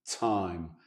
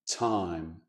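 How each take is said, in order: First: The T is soft and hissy, like an affricate. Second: The T is soft and hissy, like an affricate.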